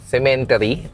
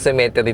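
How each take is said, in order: First: An n sound comes before the t. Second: No n sound comes before the t. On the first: The speaker calls it wrong. "Semen may N, di ba?" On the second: The speaker calls it right. "Wala naman pala talagang N"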